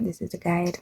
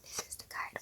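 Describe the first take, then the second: First: Said in the usual way. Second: Hushed, voiceless whisper. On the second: Real, not acted. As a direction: whisper it very softly. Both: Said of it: "Why am I whispering?".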